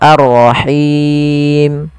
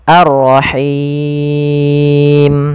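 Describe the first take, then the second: First: The final long vowel is held moderately long. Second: The final long vowel is held very long. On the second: "enam harokat"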